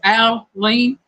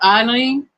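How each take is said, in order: First: The name does not start with an 'eye' sound. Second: The name starts with an 'eye' sound. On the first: This is the name's official pronunciation. "My name is technically pronounced Aline" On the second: This is what the speaker was called growing up. "I grew up being called Eileen, like I lean on Jesus"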